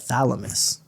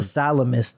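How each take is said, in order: First: The word begins with a 'th' sound. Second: The word begins with an 's' sound. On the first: The speaker calls it right. "the thalamus" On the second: The speaker calls it wrong. "Not the salamus"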